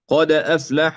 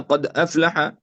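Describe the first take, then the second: First: The d has a full, strong bounce. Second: The d has only a faint, weak bounce. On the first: The speaker calls it right. "هكذا تكون القلقلة" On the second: The speaker calls it wrong. "يعني هو يعمل قلقلة لكن آه، لم يكمل"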